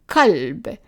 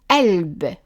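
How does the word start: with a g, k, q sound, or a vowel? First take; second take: k; vowel. First: The word starts with a plain k sound. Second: The word starts with a vowel, the q dropped. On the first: This is a regional form from part of Palestine. "like we said in that small region in Palestine" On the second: This is a dialect form. "If we are pronouncing it as a vowel"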